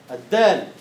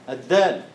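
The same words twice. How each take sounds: First: الدال said with a firm burst on the d; emphatic dal. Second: Said in the usual way. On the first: Shown as a demonstration. Teacher stressing the voiced, explosive dal to the class. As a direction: punch the d of الدال. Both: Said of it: "انفجاري ومجهور".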